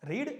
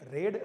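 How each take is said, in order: First: The vowel is long, like 'reed'. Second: The vowel is short, like 'red'. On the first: It is the base form of the verb. "જ્યારે મૂળ રૂપ હોય ત્યારે એનો ઉચ્ચાર રીડ થાય છે" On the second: It is the past or past participle form. "બંનેનો ઉચ્ચાર થાય છે રેડ"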